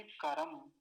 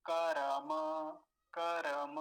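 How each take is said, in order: First: करम ending dead on the म, no vowel after; teacher showing students करम stopping on the halant म; stop on final m. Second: करम with a full final म plus vowel, said louder; teacher showing students करम as without halant, final vowel sounded. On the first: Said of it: "हलंत लगा हुआ है, तो क्या बोलेंगे". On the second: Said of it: "हलंत ना होता तो कैसे बोलते". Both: Shown as a demonstration.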